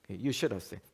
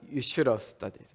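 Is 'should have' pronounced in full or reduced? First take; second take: reduced; reduced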